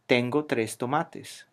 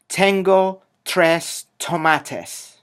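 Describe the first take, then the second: First: The t sounds are unaspirated and dental. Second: The t sounds are aspirated and alveolar. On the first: The speaker calls it right. "It's dental and is not aspirated" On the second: The speaker calls it wrong. "the place of articulation and the aspiration is different"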